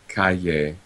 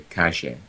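First: The middle consonant is a y-like palatal sound. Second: The middle consonant is a postalveolar sound. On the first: "instead of calle" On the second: "make it actually into a postalveolar"

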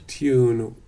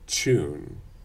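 First: It starts with a 't' followed by 'y'. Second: It starts with a 'ch' sound.

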